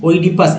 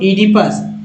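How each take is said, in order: First: The word begins with an 'oy' sound. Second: The word begins with an 'ee' sound. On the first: The speaker calls it wrong. "ओइडिपस ऐसे पढ़ देंगे, जो गलत है ना" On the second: The speaker calls it right. "ईडिपस नाम विशेष"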